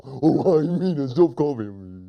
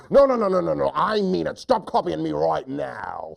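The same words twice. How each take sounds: First: Goofy echo of a tantrum; silly hunter. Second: Upset hunter. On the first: Silly hunter still copying his upset friend, goofy voice. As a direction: parrot the protest dopily. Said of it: "He repeats everything his friend says". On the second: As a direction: burst out at the copycat. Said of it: "lion hunter gets so upset". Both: Acted.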